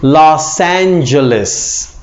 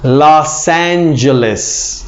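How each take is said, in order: First: It is pronounced with English sounds. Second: The same.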